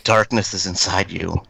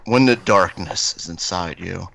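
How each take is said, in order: First: It is said in an ordinary voice. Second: It is said in a deep voice.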